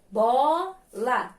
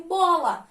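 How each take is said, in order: First: "Bola" drawn out in two separate syllables; very slow syllables. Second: Said in the usual way. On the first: Shown as a demonstration. Teacher showing pupils two syllables, very slowly. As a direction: stretch "Bola" slowly, pausing before the second syllable. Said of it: "vou falar bem devagarzinho a palavrinha bola". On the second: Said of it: "vou falar bem devagarzinho".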